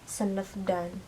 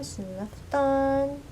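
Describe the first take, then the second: First: The suffix begins with a voiced d sound. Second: The suffix begins with a voiceless t sound. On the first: The speaker calls it wrong. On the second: The speaker calls it right. "Ini contoh yang pakai fasted syahab ya"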